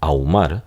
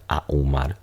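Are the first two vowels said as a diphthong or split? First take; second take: diphthong; split. First: The a and u merge into one syllable. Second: The a and u fall in separate syllables. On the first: The speaker calls it right. "normalmente dice uno ahumar. Entonces noten aquí cómo se produce un diptongo" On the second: The speaker calls it wrong. "no conozco a nadie que diga ahumar"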